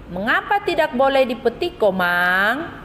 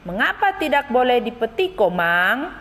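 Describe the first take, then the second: First: "Mengapa" pitched high, "Komang?" rising at the end; correct question intonation. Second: "Mengapa" lifted high, "Komang?" ending on a rise, a bit fast; question intonation demo. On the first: Teacher repeats the right intonation for pupils, rising on "Komang". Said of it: "Ibu Guru ulangi di situ, intonasi yang tepat". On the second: Teacher rereads the question to pupils with rising intonation. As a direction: model the rising question tune for the class. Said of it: "Ibu Guru bacakan ulang ya kalimat tanya". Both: Shown as a demonstration.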